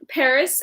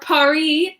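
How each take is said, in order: First: It is said with an English pronunciation. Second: It is said with a French pronunciation.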